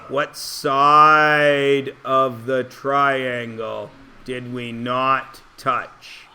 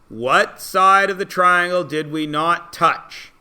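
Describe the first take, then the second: First: The question is spoken at a slower pace. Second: The question is spoken at a quicker pace.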